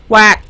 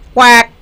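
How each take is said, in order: Both takes have the same delivery.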